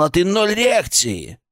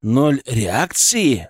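First: Reproachful creature. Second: Slow, incredulous echo of the reproach; indignant question. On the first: Acted. Creature scolds human for ignoring him. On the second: A narrator's reading. Narrator answers the creature's familiarity, indignant. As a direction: draw the words out in offended disbelief. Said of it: "возмущённо спросил я".

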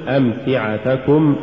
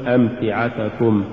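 First: Slow أمتعتكم, every short vowel complete; full vowels. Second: أمتعتكم with short vowels cut short; snatched vowels. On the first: Teacher models correct recitation, أمتعتكم evenly voweled. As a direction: give each syllable of أمتعتكم equal room. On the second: Teacher shows crooked reading, أمتعتكم hurried. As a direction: slur through the syllables of أمتعتكم. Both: Shown as a demonstration. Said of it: "ولا تقل".

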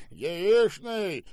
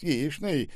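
First: High, jeering repetition; mocking echo. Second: Said in the usual way. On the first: A narrator's reading. Boss echoes the manager's offer, mocking. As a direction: throw the word back scornfully. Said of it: "издевательски прищурился Штаубе".

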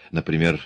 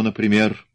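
First: Said in the usual way. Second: Например punched with rising question tune; stress on например. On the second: A narrator's reading. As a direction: lean hard on например, pointed. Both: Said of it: "Милс сделал ударение на последнем слове".

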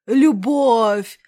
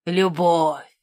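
First: «Любовь!» громче, на подъёме чувств; выкрикни «Любовь» торжественно; громкий пафосный возглас. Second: Низкое торжественное «Любовь!» с падением; протяни «Любовь» низко и напыщенно; пафосный возглас. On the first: (громко и пафосно) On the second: (пафосно, низким голосом) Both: Acted. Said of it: "Он взялся за пафосные речи".

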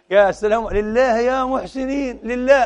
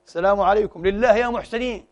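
First: High, slow whining plea for alms; mock beggar. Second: Said in the usual way. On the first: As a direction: drag out lillah like a street beggar. Beggar at the door, acted again. (متسول يستجدي بصوت عالٍ ممطوط)

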